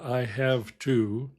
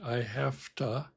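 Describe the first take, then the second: First: 'Have to' is said in full, word by word. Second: 'Have to' is reduced and run together. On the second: "the way I'm actually saying it"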